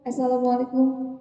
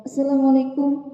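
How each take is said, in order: First: The greeting is pronounced sloppily and unclearly. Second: The greeting is pronounced sloppily and unclearly.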